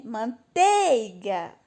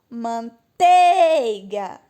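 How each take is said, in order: First: Slow "Manteiga" with a stretched, lifted "tei"; controlled drawn-out call on the "tei" of "Manteiga"; calling at the gate. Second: "Manteiga" called very slowly, "tei" loud and long; loud, off-key drawn-out call on the "tei" of "Manteiga"; calling at the gate. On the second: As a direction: holler "Manteiga", stretching "tei" far out. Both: Shown as a demonstration. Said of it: "vou ter que chamar no portão".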